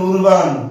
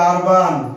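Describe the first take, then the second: First: The first vowel sounds like oo. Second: The first vowel sounds like ah. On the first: The speaker calls it wrong. "আপনি এটাকে কি বলতেছেন?" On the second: The speaker calls it right. "এটা হবে আরবান।"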